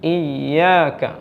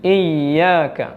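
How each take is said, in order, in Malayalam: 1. ya ശബ്ദം അല്പം നീട്ടലോടെ ഒഴുകുന്നു. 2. ya ശബ്ദം അല്പം നീട്ടലോടെ ഒഴുകുന്നു.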